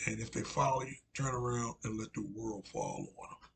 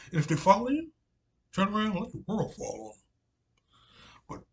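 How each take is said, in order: First: Said in the usual way. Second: Put-on high, loud South Carolina accent on the warning; loud South Carolina accent, retelling the prophet; Southern Carolina accent. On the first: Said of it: "Carolina accent". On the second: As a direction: call it out in a booming old South Carolina voice. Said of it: "in that old South, Southern, uh, Carolina accent".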